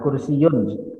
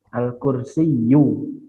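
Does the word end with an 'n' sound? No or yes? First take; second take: yes; no. First: The word ends with an added n sound. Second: The word ends on a plain vowel. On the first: The speaker calls it wrong. "jangan kursiyun" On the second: The speaker calls it right. "Tidak boleh ada"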